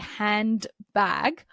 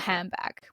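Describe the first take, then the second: First: The first part ends with an n sound. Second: The first part ends with an m sound. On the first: "you need to move from an alveolar position, that's the ridge behind your teeth, for d" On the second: "if you say handbag, you're already in the bilabial position"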